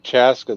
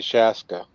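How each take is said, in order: First: The word begins with a 'ch' sound. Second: The word begins with an 'sh' sound. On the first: This is the local way of saying it. "they don't say Chaska" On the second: This is how people from the South say it. "they say Shaska"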